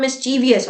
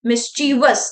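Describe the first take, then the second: First: "mischievous" as mis-chee-vee-us, four syllables; wrong pronunciation. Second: "mischievous" as mis-chee-vus, three syllables; correct pronunciation. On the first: Teacher warns against the common error, "mischievous" mispronounced mis-chee-vee-us. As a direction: slip an extra ee into "mischievous", ending vee-us. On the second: Teacher sums up for the class, "mischievous" pronounced mis-chee-vus. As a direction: close "mischievous" straight on vus, no extra ee. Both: Shown as a demonstration. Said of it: "it's not mischievous".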